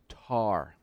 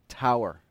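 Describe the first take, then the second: First: It is said in a British accent. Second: It is said in an American accent. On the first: "it is pronounced tar. Before the War of Independence, it was tar" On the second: "as you say here in America"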